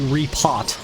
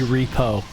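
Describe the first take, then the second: First: The word ends with a final t sound. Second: The word ends without a final t sound. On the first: The speaker calls it right. "It's obviously repot" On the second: The speaker calls it wrong. "my dumbass always pronounced it repo"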